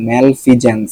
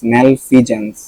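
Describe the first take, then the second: No difference in how they are said.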